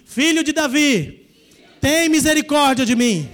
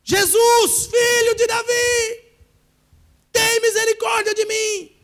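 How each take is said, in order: First: Crying out in prayer. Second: High, loud, slow desperate shout for mercy; desperate crying out. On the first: Shown as a demonstration. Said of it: "Fala comigo assim". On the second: Pretend. Desperate believer shouting after Jesus for mercy, high and loud. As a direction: scream to Jesus as if all hope hangs on it. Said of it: "Você desesperado".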